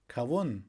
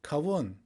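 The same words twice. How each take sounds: The two takes are said the same way.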